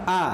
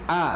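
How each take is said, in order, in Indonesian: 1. Bunyi vokalnya tipis dan terbuka, seperti a. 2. Bunyi vokalnya tipis dan terbuka, seperti a.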